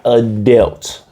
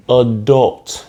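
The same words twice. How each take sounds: First: Slow "adult" as "a-delt", like Adele; wrong "adult". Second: "adult" with a rounded o, "a-dolt"; correct "adult". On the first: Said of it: "not adult". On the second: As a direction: say "adult" just like it's spelled. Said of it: "You say it like it's spelled". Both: Shown as a demonstration.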